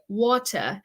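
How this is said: British accent, the T is crisp and sharp. "Teacher Chris would probably say water ... he says the T very, very sharp"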